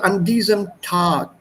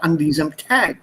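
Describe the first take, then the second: First: The vowel in Tag is a plain 'ah'. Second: The vowel in Tag is a different sound. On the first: The speaker calls it right. "Just follow the basic alphabet pronunciation" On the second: The speaker calls it wrong.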